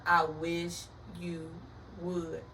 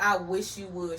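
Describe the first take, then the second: First: Slow, word-by-word warning; slow, deliberate daring repeat; drawn-out dare. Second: Said in the usual way. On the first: Retold or imitated. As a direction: stretch each word with a pause before the last.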